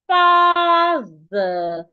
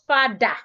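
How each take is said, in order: First: The middle consonant is a soft 'th' sound. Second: The middle consonant is not a 'th' sound. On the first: The speaker calls it right. "your tongue should be here" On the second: The speaker calls it wrong. "not father"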